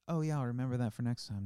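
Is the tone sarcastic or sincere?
sincere. The tone sounds sincere and genuine. The speaker truly means to remember it. "You heard"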